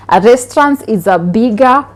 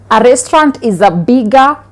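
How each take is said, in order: Both takes have the same delivery.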